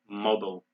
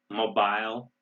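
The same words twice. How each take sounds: First: The word is said in an American accent. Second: The word is said in a British accent.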